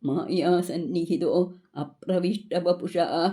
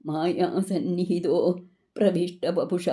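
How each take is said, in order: First: An a sound is added before pravishta. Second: Pravishta follows sannihito with no added a sound. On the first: "அங்கே ஆன்னு படிக்கணும்" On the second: "அப்படின்னு இருக்குல்லவா?"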